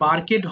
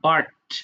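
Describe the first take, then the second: First: The ending is said as a separate syllable. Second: The ending joins the word as one syllable. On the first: The speaker calls it wrong. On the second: The speaker calls it right.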